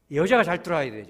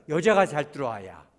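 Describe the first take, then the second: First: 여자가 said loudly with a falling tone; louder 여자가 for the congregation to repeat; stress. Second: Call-and-response stress on 여자가; 여자가 hit loud again. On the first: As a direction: lead the congregation hitting 여자가. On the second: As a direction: repeat with 여자가 loud and falling. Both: Shown as a demonstration. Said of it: "우리 따라하세요".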